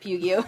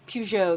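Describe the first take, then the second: First: The name is said to rhyme with Yu-Gi-Oh. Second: The name does not rhyme with Yu-Gi-Oh. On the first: The speaker calls it wrong. "I said Pugio. Like Yu-Gi-Oh" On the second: The speaker calls it right. "Peugeot, excuse me"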